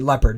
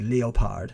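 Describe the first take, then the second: First: The name has an American pronunciation. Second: The name has a British pronunciation. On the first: "what we would say Leopard" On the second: "the British say Leopard"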